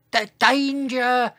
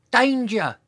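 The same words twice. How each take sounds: First: High, drawn-out warning with a stammered start; second, longer shout. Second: High, small-voiced warning call; a little dinosaur attempt at shouting; tiny shout. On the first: Dinosaur trying harder to warn others, long high shout. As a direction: stretch the small high call out slowly. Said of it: "He tried again". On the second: Dinosaur warning the others, tiny high shout. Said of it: "cleared his throat and shouted". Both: A narrator's reading.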